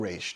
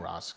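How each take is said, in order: First: The name sounds like 'raysh', ending in sh. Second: The name sounds like 'ross', ending in s. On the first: "or Raish, depending on how you pronounce it" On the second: "I'm going Ross because that's how I read it"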